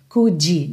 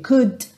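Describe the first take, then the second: First: An extra vowel is added after the final D. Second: The word stops on the D with no vowel. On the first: The speaker calls it wrong. "uma vogal depois dessa consoante... não faça isso" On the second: The speaker calls it right. "para no D"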